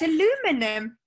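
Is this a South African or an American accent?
American. It is said in an American accent.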